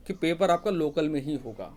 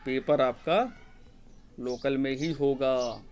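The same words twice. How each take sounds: First: Said in the usual way. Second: "paper आपका", a long pause, then "local में ही होगा" drawn out; slow emphasis. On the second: Shown as a demonstration. Teacher repeats the key answer on exam centres, slow and emphatic. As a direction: spell it out slowly, pausing after "आपका".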